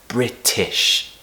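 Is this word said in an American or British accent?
British. It is said in a British accent. "If you want British pronunciation, pronounce the word British as"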